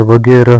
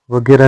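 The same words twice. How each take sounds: First: वगैरह slowly with final h; correct ending. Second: वगैरह ending in open "ra"; wrong ending. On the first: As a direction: breathe out the ह of वगैरह. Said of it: "होता है". (वगैरह में अंतिम ह) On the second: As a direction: say वगैरह as "vagera". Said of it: "नहीं होता है". (वगैरह को वगेरा जैसा) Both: Shown as a demonstration.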